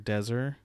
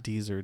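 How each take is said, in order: First: The first vowel is a short 'e' sound. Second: The first vowel is a long 'ee' sound. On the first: The speaker calls it right. "I think you pronounce it Deser" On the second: The speaker calls it wrong. "Not Deezer"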